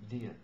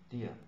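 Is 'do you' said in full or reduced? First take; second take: reduced; reduced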